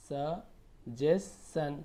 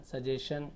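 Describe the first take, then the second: First: suggestion stretched very slowly; syllable by syllable. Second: Said in the usual way. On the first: Shown as a demonstration. Teacher breaking suggestion into slow syllables for the class. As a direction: sound out suggestion piece by piece. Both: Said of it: "तोड़ तोड़ के पढ़िए आप".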